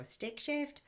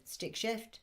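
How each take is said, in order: First: Puzzled American. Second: Said in the usual way. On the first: Retold or imitated. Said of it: "They go". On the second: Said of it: "We just say".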